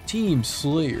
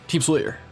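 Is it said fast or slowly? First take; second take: slowly; fast. First: It is said slowly. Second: It is said fast.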